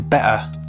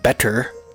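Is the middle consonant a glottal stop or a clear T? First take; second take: glottal stop; clear T. First: The middle consonant is a glottal stop. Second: The middle consonant is a clear T sound. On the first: "you just shorten it to beta" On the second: "Instead of better"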